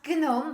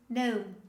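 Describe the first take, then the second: First: The G sound is pronounced at the start. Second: The G sound is left out at the start. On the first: The speaker calls it wrong. "They pronounce all the letters in this word" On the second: The speaker calls it right. "the correct pronunciation is gnome"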